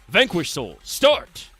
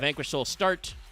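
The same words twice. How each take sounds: First: It is said like a fighting game announcer. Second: It is said in a plain, ordinary voice.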